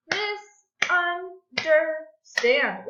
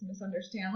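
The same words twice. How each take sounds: First: "Misunderstand" loud and slow in four beats; clapped syllables. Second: Said in the usual way. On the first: Shown as a demonstration. Teacher clapping out a word for pupils, loud separate beats. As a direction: punch out "Misunderstand" as mis, un, der, stand. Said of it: "Let's clap it out". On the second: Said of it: "Let's try that again".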